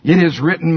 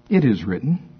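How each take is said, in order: First: The voice is raised and forceful. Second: The voice is calm and mild. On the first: The speaker calls it right. "I think there was a little pitch to his voice" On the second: The speaker calls it wrong. "How many of you think he said it like this?"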